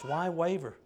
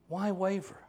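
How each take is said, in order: First: "Why waver" repeated gently with the fall on "waver"; softer echo. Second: "Why waver?" with the stress on "why", a small rise; "Why waver?" asked with weight on "why"; pointed question. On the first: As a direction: let "waver" drop as a quiet echo. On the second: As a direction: press "why" to challenge the listener. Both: Shown as a demonstration. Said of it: "Same could be asked of us".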